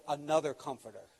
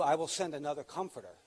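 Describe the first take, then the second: First: Another leaned on, comforter falling away; stress on Another. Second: Said in the usual way. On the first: Shown as a demonstration. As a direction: lean into the word Another. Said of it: "which gives the idea". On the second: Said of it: "Jesus said, "Another comforter".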